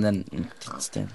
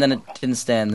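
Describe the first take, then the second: First: Slow, soft, trailing mutter; muttered under breath. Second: Said in the usual way. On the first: Real, not acted. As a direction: grumble it to yourself. Repeats complaint, fading.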